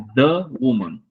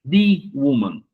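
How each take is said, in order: First: The article is said as 'thuh', consonant form. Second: The article is said as 'thee', vowel form. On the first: The speaker calls it right. "é the woman ... o valor dele é de consoante" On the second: The speaker calls it wrong. "woman não é the woman"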